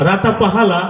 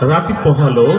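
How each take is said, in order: First: Every vowel sound is replaced with 'a'. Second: The words keep their normal vowel sounds. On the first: "তুমি কালকে আকার দিয়ে পড়ে আসো।" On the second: "সেটা ছিল"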